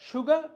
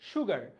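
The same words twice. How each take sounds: First: The final r sound is dropped. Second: The final r sound is pronounced.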